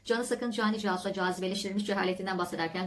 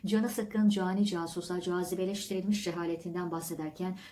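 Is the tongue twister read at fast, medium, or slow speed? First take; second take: fast; slow. First: The phrase is read at maximum speed. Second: The phrase is read at a slow pace.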